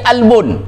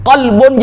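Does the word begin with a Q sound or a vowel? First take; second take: vowel; Q sound. First: The word begins directly with a vowel. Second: The word begins with a deep Q consonant. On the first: This is the Egyptian everyday form. "dibacanya huruf alif" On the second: This is the standard form. "Ditulisnya huruf qaf"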